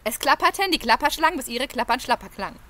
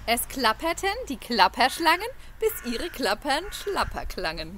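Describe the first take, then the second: First: It is said very fast. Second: It is said somewhat faster.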